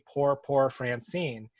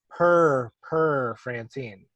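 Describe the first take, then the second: First: The word is said with a clear 'poor' vowel. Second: The word is said like 'purr', as a cat does. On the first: The speaker calls it right. "she could never say" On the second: The speaker calls it wrong. "like purr like a cat"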